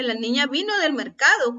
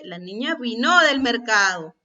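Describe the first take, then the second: First: Said in the usual way. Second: "vino" stressed on the last syllable, vi-NÓ; wrong final-syllable stress. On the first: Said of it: "ahí no dice la niña vino del mercado". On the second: Shown as a demonstration. Teacher shows what the misplaced tilde says, "vino" stressed on its last syllable. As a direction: push the accent onto the "no" of "vino". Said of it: "¿Así es como pronunciamos esa palabra?".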